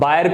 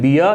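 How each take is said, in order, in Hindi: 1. यह buy-er जैसा सुनाई देता है, eye स्वर के साथ। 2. यह bee-uh जैसा सुनाई देता है, बिना r के। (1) "सॉरी बायर करके" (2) "आर यहां पर साइलेंट है"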